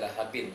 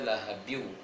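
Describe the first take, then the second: First: The final n is pronounced clearly. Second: The n merges into a w sound. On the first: The speaker calls it wrong. "Tidak dibaca lahabin" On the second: The speaker calls it right. "dimasukkan ke waw"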